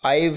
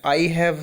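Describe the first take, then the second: First: The words are merged into one contracted word. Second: Both words are said fully and separately.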